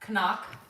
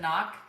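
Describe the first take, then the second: First: The word starts with a sounded k. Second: The word starts with a plain n sound.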